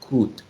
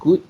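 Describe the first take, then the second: First: The word begins with a voiceless k sound. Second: The word begins with a voiced g sound.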